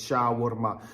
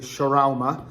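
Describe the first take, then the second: First: Shawarma is said the Middle Eastern way. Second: Shawarma is said the common anglicized way. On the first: This is how it is said where the dish comes from. "trust me, it's shawarma" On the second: This is how most people around the speaker say it. "everyone else calls it shawarma"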